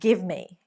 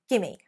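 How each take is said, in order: First: Both words are said fully and separately. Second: The words are run together into one short word.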